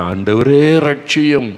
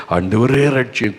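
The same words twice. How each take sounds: First: Loud, slow, higher plea like a man sinking in the sea; desperate cry for help. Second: Said in the usual way. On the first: Acted. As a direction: cry out ஆண்டவரே stretched and raised, pleading. Drowning disciple cries for rescue.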